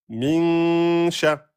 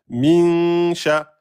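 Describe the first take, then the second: The two takes are said the same way.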